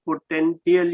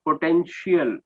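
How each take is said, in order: First: "potential" with a hard t, po-ten-ti-al; mispronounced potential. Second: "potential" with a sh sound, po-ten-shial; corrected pronunciation. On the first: Retold or imitated. English teacher repeats student's slip, mispronounced "potential" with hard t. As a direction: say "potential" with a t sound where sh belongs. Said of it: "potential you said". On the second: Shown as a demonstration. English teacher corrects student's word, "potential" clearly with sh. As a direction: say "potential" with sh in place of t. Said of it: "it's potential".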